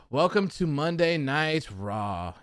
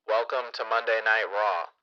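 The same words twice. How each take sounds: First: Slow, drawn-out welcome; slow delivery. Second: Lightly mocked, monotone script-reading host; boring robotic announcer. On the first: Shown as a demonstration. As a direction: stretch each word out slowly. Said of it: "I talk slow". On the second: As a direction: read it like a bored robot announcer. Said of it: "they're robots and they're just reading scripts".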